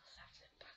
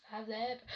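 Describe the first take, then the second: First: Presque inaudible, chuchoté tout bas; un murmure à peine soufflé. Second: Said in the usual way. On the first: A narrator's reading. Le conteur insiste sur la peur. (chuchote tout bas pour faire frissonner)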